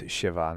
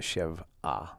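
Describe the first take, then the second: First: The word flows smoothly as she-va without a break. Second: The word breaks after shev before a separate a. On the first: The speaker calls it right. "Actually, it's sheva" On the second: The speaker calls it wrong. "not shev'ah"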